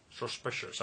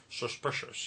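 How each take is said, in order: First: Sean Connery impression. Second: Sean Connery voice. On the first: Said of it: "I sound more like Sean Connery when I actually say his voice". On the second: Retold or imitated. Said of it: "I really like to say that word".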